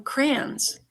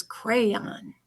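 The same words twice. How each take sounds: First: "crayons" run together to rhyme with "fans"; child's Michigan pronunciation. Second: Slow, full "crayon" with both vowels; standard two-syllable crayon. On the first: Retold or imitated. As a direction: say "crayons" as one syllable, "crans". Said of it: "she called". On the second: Shown as a demonstration. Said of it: "till she figured out".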